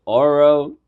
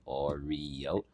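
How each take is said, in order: First: "Oro" with the middle syllable swallowed, louder and higher; slurred pronunciation. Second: "Oreo" in full, slow and low, every syllable sounded; careful pronunciation. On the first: Retold or imitated. Mocking friend's first try at Oreo, "Oro" slurred loudly. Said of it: "completely slurred over it". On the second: Shown as a demonstration. Showing friend the proper word, "Oreo" said slowly syllable by syllable. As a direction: draw out all three syllables of "Oreo". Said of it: "you're saying it like Oreo".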